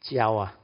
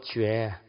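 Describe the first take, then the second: First: The syllable is pronounced jiao. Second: The syllable is pronounced jue. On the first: It means stirring up trouble in the mundane mind. "First pronunciation is jiao" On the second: It means enlightenment. "jue means enlightenment"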